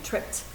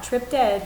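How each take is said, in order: First: The ending is a single final consonant. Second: The ending is an extra separate syllable. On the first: The speaker calls it right. "We say I tripped" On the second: The speaker calls it wrong. "Not tripped ed"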